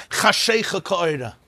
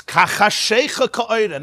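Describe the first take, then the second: First: Said in the usual way. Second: Ka chashecha said slowly with weight on Ka and chashecha; slow, deliberate Ka chashecha ka'oira, leaning on chashecha; stress on Ka. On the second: Shown as a demonstration.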